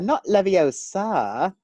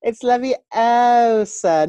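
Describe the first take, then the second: First: "Leviosa" slowly with stress on the "a", Levio-SA; "Leviosa" said the wrong way, mocked; wrong pronunciation. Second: "Leviosa" said slowly, stress on the long "o", Levi-O-sa; "Leviosa" drawn out, correcting like Hermione; Hermione correction. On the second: Retold or imitated. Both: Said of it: "quoting Hermione's correction".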